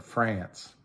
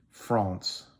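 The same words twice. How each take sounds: First: France with a flat "a" as in cat; plain American France. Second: France with a broad nasal "ah"; France the French way, nasal ah; French-style France. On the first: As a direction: say France as frannce, flat front vowel. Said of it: "like we all do here". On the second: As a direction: say France as fronsse, open back vowel. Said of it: "although they said France, like we all do here". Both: Shown as a demonstration.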